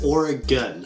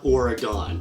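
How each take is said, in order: First: It uses the local pronunciation of the name. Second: It uses an outsider pronunciation of the name. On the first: The speaker calls it right. "it's Oregon" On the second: The speaker calls it wrong. "not Oregon. That really annoys us"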